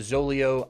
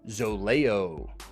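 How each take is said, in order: First: The name is said in a plain way. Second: The name is said in a fancier way. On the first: The speaker calls it right. "instead of Zoleo" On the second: The speaker calls it wrong. "it's a little more appealing, sounds a little fancier"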